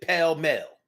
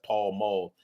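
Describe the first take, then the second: First: It sounds like 'pale mel'. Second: It sounds like 'Paul Mall'. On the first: The speaker calls it wrong. "but we pronounced it pale mel" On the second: The speaker calls it right. "That's Paul Mall"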